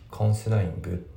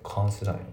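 First: The word ends with a full -ing sound. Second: The word ends without the final g sound. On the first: "コンシダイングじゃなくて" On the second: "コンシダインってなってますね"

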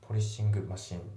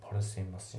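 First: The final g of polishing is clearly pronounced. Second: The final g of polishing is almost silent. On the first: The speaker calls it wrong. "じゃなくて" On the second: The speaker calls it right. "ですね"

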